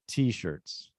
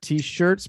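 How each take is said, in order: First: The stress is on the first part. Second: The stress is on the second part. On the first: The speaker calls it right. "the stress is on T instead of shirts ... but t-shirts" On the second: The speaker calls it wrong. "Not t-shirts"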